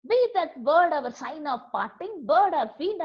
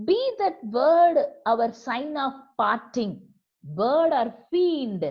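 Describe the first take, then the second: First: A touch of angry protest, slightly raised; mildly indignant recitation; indignant outburst. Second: Louder, stretched-out angry line; forceful angry reading, drawn out at the end; indignant cry. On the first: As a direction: read it as the poet flaring up. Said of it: "I shrieked". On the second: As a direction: hurl the words at the bird. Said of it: "became angry in his indignant manner". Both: Acted.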